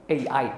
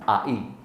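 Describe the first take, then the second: First: The letters are read with English letter names. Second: The letters are read with Indonesian letter names. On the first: "Kalau bahasa Inggris karena A itu dibaca A, sementara I itu dibaca I" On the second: "kalau bahasa Indonesia dibaca A I"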